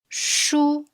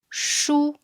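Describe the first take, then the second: First: The pitch stays high and level. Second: The pitch stays high and level.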